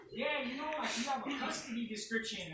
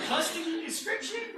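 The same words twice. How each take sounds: First: Said in the usual way. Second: Louder, higher disbelieving question; retold incredulity. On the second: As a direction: echo it back as if absurd, pitched up. Retold incredulous echo of officer.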